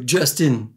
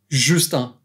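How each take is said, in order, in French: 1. Il est prononcé avec un accent anglais. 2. Il est prononcé avec un accent français. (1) "pas euh" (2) "il faut le lire avec l'accent français"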